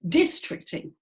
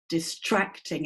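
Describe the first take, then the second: First: The stress is not on the second syllable. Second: The stress is on the second syllable. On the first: The speaker calls it wrong. "It's not distracting" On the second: The speaker calls it right. "It's usually the base that we make strong in words"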